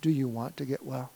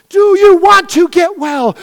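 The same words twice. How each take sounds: First: Softer, lower, gentle asking; quiet question. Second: Slow, loud, high shout; shouted challenge. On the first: Pastor quietly asking the church again, soft. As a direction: ask it gently after the prayer. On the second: Pastor challenging the church, slow shouted question. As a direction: hurl the question at them. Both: Acted.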